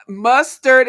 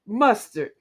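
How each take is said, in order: First: "Mustard" slowly and loudly as mus, tard; syllable by syllable. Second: Said in the usual way. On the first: Shown as a demonstration. Host proving the word has two syllables, "Mustard" in two loud beats. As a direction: punch out both beats of "Mustard". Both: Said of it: "Mustard is two".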